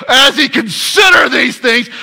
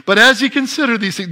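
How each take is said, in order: First: Loud strained cry of a torn man; exasperated anguished shout. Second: Said in the usual way. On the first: Shown as a demonstration. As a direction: cry it out like Joseph in agony. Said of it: "that's really what it was".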